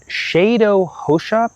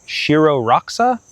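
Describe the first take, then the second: First: The name is said in a non-American, native-style way. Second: The name is said in an Americanized way. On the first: "I'm going to mess up this pronunciation" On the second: "If I were going to be American about it"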